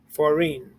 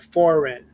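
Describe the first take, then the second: First: The stress is on the last syllable. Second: The stress is on the first syllable. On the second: This is the ordinary way the word is said. "Foreign emphasizes the beginning syllable of the word"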